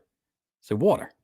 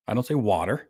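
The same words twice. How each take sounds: First: Slow, higher "water" as WAW-ter; New York "water". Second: "water" with an open ah, unrounded; neat, accent-free "water" as the contrast; practised standard "water". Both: Shown as a demonstration.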